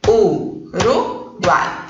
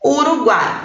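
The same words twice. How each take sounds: First: Very slow "Uruguai" split as u-ru-guai, with gaps; syllable by syllable. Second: Said in the usual way. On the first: Shown as a demonstration. Teacher checking the vowels with pupils, "Uruguai" slowly syllable by syllable. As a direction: break "Uruguai" into three drawn-out syllables. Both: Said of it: "Vamos ver?".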